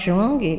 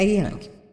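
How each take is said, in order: First: The name is read like Portuguese spelling suggests. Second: The name is read the German way. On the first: The speaker calls it wrong. "não é Jung? Mas escreve Jung" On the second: The speaker calls it right. "a pronúncia é Jung"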